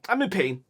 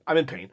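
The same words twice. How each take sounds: First: Said in the usual way. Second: Rueful laugh while hurting. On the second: Real, not acted. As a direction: chuckle it out wryly, in pain.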